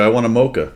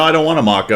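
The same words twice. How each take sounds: First: Mocha with a long "oh" in the first syllable; American-style MOCHA. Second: MACA with a short open "ah" in the first syllable; British-style MACA. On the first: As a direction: insist on mocha, said "MOH-ka", higher. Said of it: "No, I don't want a maca". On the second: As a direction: stress maca, said "MAH-ka", higher and louder. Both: Retold or imitated.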